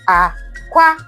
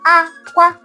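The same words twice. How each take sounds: First: The first syllable is low, the second high. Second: Both syllables are said on a high tone. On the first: "And then the low, high" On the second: "the high, high is called aqua"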